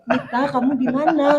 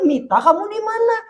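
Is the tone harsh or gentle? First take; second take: gentle; harsh. First: It is said in a gentle tone. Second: It is said in a harsh tone.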